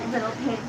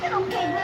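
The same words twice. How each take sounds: First: It is said in a gruff wolf-like voice. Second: It is said in a put-on old-lady voice. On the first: The speaker drops the disguise and shows a threat. "used his real wolfy voice" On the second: The speaker is pretending to be someone harmless. "He was using his fake-sounding old lady voice again"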